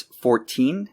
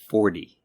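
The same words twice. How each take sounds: First: "fourteen" drawn out, with a true T; slow "fourteen", T distinct, rising at the end; clear T sound. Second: "forty" as American "fordy", falling; almost a D. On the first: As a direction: slowly show the T in "fourteen". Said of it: "pronounced with a T sound". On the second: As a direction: say the T in "forty" nearly as D. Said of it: "almost a D sound". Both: Shown as a demonstration.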